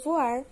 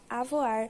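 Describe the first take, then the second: First: The word begins directly with a V sound. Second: The word begins with an added A sound. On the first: "como na palavra voar" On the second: "que pode ser usada como avoar"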